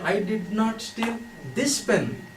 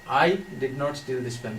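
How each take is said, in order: First: The stress is on "this". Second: The stress is on "I".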